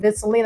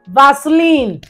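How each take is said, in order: First: It is said in a posh accent. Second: It is said in a Nigerian accent.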